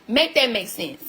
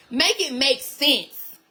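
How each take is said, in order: First: Said in the usual way. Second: Drawn-out, each word weighted; slow emphatic demand. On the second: Real, not acted. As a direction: spell it out slowly for them.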